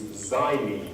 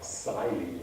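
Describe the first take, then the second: First: The word begins with a 'z' sound. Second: The word begins with a 'ks' sound. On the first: The speaker calls it right. "as though the first letter was Z" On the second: The speaker calls it wrong. "Don't try and pronounce it as an X"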